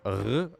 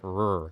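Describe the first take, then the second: First: The R is not said the English way. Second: The R is said the English way. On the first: "with the R like r" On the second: "like the English do it"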